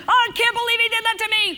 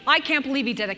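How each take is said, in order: First: Much higher, louder and fast outraged cry; hammed-up indignant shriek; mock fury. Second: Said in the usual way. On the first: Shown as a demonstration. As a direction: ham up being wronged for the crowd. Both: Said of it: "Okay, get angry".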